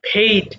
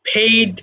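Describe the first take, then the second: No difference in how they are said.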